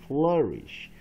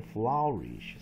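First: Slow flourish as FLUR-ish, with an ER vowel; correct vowel demonstration. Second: Flourish misread as FLOW-rish, like flower; wrong vowel demonstration. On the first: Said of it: "它是念二哈". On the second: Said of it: "不是念flourish". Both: Shown as a demonstration.

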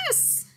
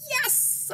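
First: YES punched out loud as a bigger cheer; loud, forceful YES, topping a plain yes; emphatic yes. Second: High, loud, drawn-out cheer; gleeful acted yes; excited yes. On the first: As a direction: hit YES hard, one explosive shout. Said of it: "Not only yes, but". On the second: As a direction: cheer it like a thrilled kid. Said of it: "I said". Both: A narrator's reading.

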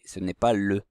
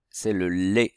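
First: LE said with a rounded "eu"; "le" pronounced "leu"; unaccented e sound. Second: LAIT said with a clear closed "é"; "lait" pronounced "lé"; closed é sound. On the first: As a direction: end LE on "eu", not "é". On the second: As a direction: end LAIT on "é", as with an acute accent. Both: Shown as a demonstration. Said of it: "il y a un accent".

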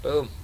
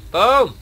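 First: Said in the usual way. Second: Loud high rising boom; excited boom. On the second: Real, not acted. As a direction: build to a shout. Explosions building.

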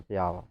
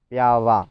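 First: ПіАла with stress on middle А; everyday stress on middle. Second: ПіалА with loud final ЛА; stress on last syllable. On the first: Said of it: "Ну, кажемо". (звичний наголос: піАла) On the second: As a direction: punch the end of піалА. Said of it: "Але ж наголос який?". (наголос на останній склад: піалА) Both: Shown as a demonstration.

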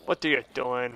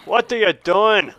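First: Low, soft questioning; muted disbelief. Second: Slow, drawn-out, emphatic question; exasperated scolding. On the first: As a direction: ask it under your breath. First asking, then louder repeat. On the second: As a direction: scold with stretched-out words. Repeats question more forcefully. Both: Real, not acted.

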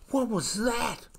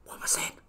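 First: High, startled little voice; frightened cry. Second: Urgent stage whisper; loud whisper. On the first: Kiwi chick startled by a frog, frightened cry. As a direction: blurt it out in a fright. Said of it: "little Kiwi cried". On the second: Kiwi chick to his mother in the dark, scared whisper. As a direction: hiss the question to mum in fear. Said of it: "he whispered loudly". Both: Acted.

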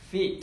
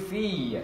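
First: "Feet" said short and quick; a bit quicker. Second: "feet" with the ee drawn out; long E demo. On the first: Teacher asks class to read faster, quick short Feet. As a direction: snap through "Feet" without holding the ee. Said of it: "Chúng ta đọc nhanh một chút nhá". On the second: Teacher shows how to read feet, long drawn ee. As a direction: stretch the vowel in "feet". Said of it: "Âm long E". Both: Shown as a demonstration.

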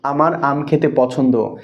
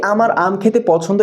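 First: Slow, falling statement of আমার আম খেতে পছন্দ; slow spoken example; slow example sentence. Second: আমার আম খেতে পছন্দ said higher with a rise after খেতে; rising example. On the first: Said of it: "একটা বাক্য বলছি". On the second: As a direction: lift the pitch and let খেতে পছন্দ rise at the end. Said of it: "এই ওয়ার্ডটাকেই সেন্টেন্সে convert করা লাগবে". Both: Shown as a demonstration.

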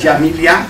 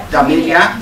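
First: Jamilia, opening on a J sound; second pronunciation attempt. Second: Damilia, opening on a D sound; unsure pronunciation. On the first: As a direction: try the name as "Jamilia", starting with J. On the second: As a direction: try the name as "Damilia", starting with D. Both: Real, not acted. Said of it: "ik weet niet eens hoe ik het uitspreek".

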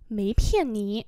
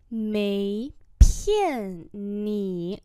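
First: Said in the usual way. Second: Each syllable drawn out slowly; slow teaching repeat. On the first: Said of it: "normal model". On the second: Shown as a demonstration. Teacher slowly models the phrase for students, drawn out. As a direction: spell it out slowly for learners. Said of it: "slow repeat".

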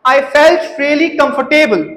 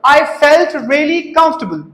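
First: Slow sentence, comfortable as "kum-fur-TAY-bul"; wrong comfortable pronunciation. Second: Slow sentence, comfortable as "KUMF-tuh-bul"; correct comfortable pronunciation. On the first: Teacher asking students to compare, comfortable as "kum-fur-TAY-bul". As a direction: sound "table" in comfortable. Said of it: "हुण कंफर्टेबल word लगदा ना". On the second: Teacher asking students to compare, comfortable as "KUMF-tuh-bul". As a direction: say comfortable in three reduced beats. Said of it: "बोल के वेखो". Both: Shown as a demonstration.

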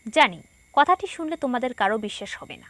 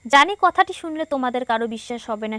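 First: জানি, then a short pause before কথাটি শুনলে; a light comma break after জানি; জানি set off by a short pause. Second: জানি কথাটি শুনলে run straight on with no pause after জানি; জানি কথাটি running into শুনলে unbroken; read without pauses. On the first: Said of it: "যদি আমি এভাবে পড়তাম". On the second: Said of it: "অনুচ্ছেদটি পড়তে গিয়ে আমি, আহ, প্রায় হাঁপিয়ে গিয়েছিলাম". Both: Shown as a demonstration.

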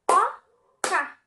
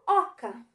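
First: "Oca" broken into O - ca, both loud; two punched, separate beats on "Oca"; syllable by syllable. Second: Said in the usual way. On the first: Shown as a demonstration. Teacher counts syllables for pupils, "Oca" split into O, ca. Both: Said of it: "Duas sílabas".

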